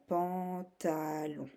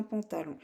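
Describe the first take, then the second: First: "pantalon" slow, in three stretched syllables. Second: Said in the usual way. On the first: Shown as a demonstration. Teacher showing the three syllables needed, syllable by syllable. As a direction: draw out "pan, ta, lon". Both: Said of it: "tu as besoin de trois syllabes".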